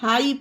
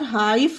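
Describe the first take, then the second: First: The word ends with no f sound. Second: The word ends with an f sound. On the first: The speaker calls it right. "इसे हाई पढ़ेंगे" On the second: The speaker calls it wrong. "फा का उच्चारण देकर हाइफ मत पढ़ लेना, ये गलत हो जाएगा"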